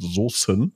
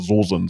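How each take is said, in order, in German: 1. Das Wort wird übertrieben sorgfältig gesprochen. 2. Das Wort wird hessisch mundartlich gesprochen. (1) "ich überkompensiere das, deshalb ist das vielleicht falsch betont" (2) "weil ich sonst immer Soßen sage"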